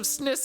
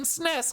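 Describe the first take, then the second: First: The vowel sounds like the one in 'kit'. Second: The vowel sounds like the one in 'dress'. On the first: The speaker calls it wrong. "Are you saying S N I S?" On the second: The speaker calls it right. "I'm pretty sure I say S N E S"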